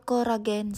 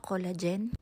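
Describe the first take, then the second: First: It is said with a Japanese pronunciation. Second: It is said with a non-Japanese pronunciation.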